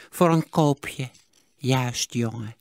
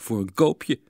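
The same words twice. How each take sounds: First: Put-on slow stingy old voice; eagerly repeat, drawn out; miser repeating. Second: 1 cheeky. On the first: Miser echoes the boy's bargain, slow old voice. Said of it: "herhaalde Sigertsma". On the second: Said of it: "zei Sietse ondeugend". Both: A narrator's reading.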